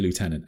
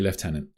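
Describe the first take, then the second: First: The first syllable sounds like 'loo', with no f. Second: The first syllable has an f sound, like 'left'. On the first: This is the American way of saying it. "I know that you say Lieutenant" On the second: This is the British way of saying it. "I'm going to have to say Lieutenant"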